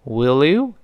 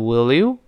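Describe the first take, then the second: First: The two words are linked together. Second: The two words are linked together.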